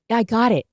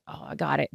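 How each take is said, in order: First: Said in the usual way. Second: Quiet, brushed-off "I got it"; dismissive. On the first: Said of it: "He goes". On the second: Retold or imitated. Mimicking the boyfriend's dismissive quiet reply. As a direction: wave it off, barely bothering. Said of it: "dismissive way".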